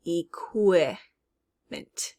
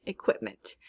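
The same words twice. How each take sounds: First: EQUIPMENT very slowly, "ee ... kwip ... ment"; syllable by syllable. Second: Said in the usual way. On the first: Shown as a demonstration. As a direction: stretch EQUIPMENT out to show the "kw". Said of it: "I did hear that qu". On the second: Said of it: "in equipment".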